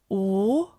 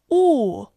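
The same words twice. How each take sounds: First: The pitch rises from mid to high. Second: The pitch falls sharply from high.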